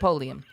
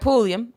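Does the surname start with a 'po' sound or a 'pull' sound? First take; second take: po; pull. First: The name begins with a 'po' sound. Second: The name begins with a 'pull' sound. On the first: The speaker calls it wrong. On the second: The speaker calls it right.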